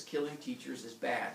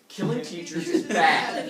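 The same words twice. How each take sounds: First: Said in the usual way. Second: Loud, slow "Killing teachers is bad"; emphatic repeat. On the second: Shown as a demonstration. Teller repeating the moral to listeners, loud slow emphasis on "Killing teachers is bad". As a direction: hammer each word of "Killing teachers is bad", loud and drawn out. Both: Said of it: "Let's repeat that".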